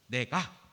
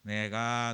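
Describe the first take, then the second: First: The word is cut off short and crisp. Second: The word is drawn out, not cut off.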